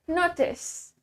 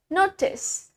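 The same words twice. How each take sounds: First: The middle consonant is a clear T sound. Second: The same.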